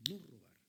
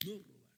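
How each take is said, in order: Both takes have the same delivery.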